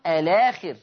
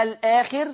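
First: "الآخر" linked as alaakhir; a-laa-khir for "الآخر", no glottal stop; naql with long vowel. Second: Said in the usual way. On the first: Shown as a demonstration. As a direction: drop the hamza in "الآخر", lam into long "aa". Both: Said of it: "أيضًا بدل ومعه نقل".

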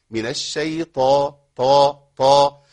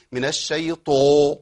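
First: الشيطان with the ط heavy and lips only slightly forward, طا repeated loud; heavy ط in الشيطان with only a slight push of the lips; slight lip rounding. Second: الشيطان with the ط pushed into an "o", slowly; overdone heaviness. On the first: Teacher showing students the right amount of heaviness. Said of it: "حركة بسيطة جدًا". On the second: Teacher showing students exaggerated heaviness, slowly. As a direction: overdo the ط in الشيطان into "شيطو", as a mistake. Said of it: "اوعى تبالغ قوي". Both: Shown as a demonstration.

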